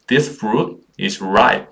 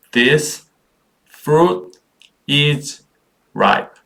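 First: Said in the usual way. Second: "This fruit is ripe" in isolated, raised words with pauses. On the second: Shown as a demonstration. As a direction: lift and separate each word of "This fruit is ripe". Teacher models word by word. (한 단어씩 또박또박 끊어 읽기)

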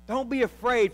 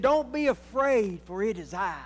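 First: Said in the usual way. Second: A hint of Jesus calming his friends; voicing Jesus. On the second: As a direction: reassure the frightened disciples gently. Preacher voices Jesus calming disciples.

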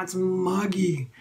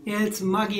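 First: Slow muggy drawl. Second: Said in the usual way. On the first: Real, not acted. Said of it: "repeated for effect".

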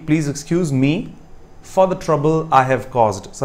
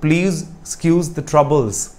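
First: Corrected sentence read very slowly; slow dictation. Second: Wrong sentence read very slowly; slow quoted sentence. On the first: Teacher slowly dictating the corrected sentence to students. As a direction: dictate the right version clearly. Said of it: "the proper correction of the first sentence would be". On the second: Teacher slowly quoting the wrong sentence to students. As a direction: spell out the mistake word by word. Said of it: "का मतलब होगा गलतियों को माफ़ कीजिएगा". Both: Shown as a demonstration.

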